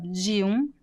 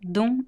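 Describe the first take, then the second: First: The two words are said as separate syllables. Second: The two words merge into one syllable. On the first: "instead of de um" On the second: "She says dum"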